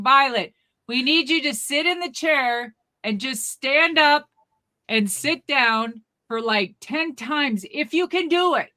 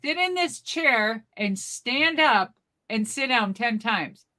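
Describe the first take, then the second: First: Raised, higher instructing voice; mock yelling. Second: Slow echo of the instructions; unimpressed repeating. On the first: Clinic staff giving granny a test, mock yelling. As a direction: spell it out loudly for an old lady. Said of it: "They're still yelling". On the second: Retold or imitated. Granny repeating the test back to staff, unimpressed.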